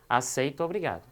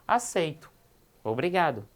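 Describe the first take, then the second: First: The two words run together without a pause. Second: There is a short pause after the first word. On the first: The person is forced to accept. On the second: The person accepts willingly and says thanks.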